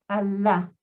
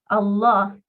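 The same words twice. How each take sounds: First: The L sound is light and soft. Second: The L sound is heavy and thick. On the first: "Esa lam la pronunciamos suavecita" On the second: "con fuerza. la lam de la palabra Allah, se pronuncia de una manera pesada"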